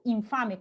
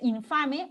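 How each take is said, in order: First: The nasal before the f sounds like m. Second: The nasal before the f sounds like n.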